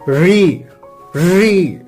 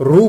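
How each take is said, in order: First: The syllable ends with an 'ee' vowel. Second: The syllable ends with an 'oo' vowel. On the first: The speaker calls it right. "इसका सही उच्चारण इस प्रकार होगा" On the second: The speaker calls it wrong. "कई लोग रू बोलते हैं"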